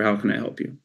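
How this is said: It is said in a flat, monotone, unexcited voice. The caller is not valued or engaged. The speaker calls it wrong. "This is boring, it's monotone, no excitement"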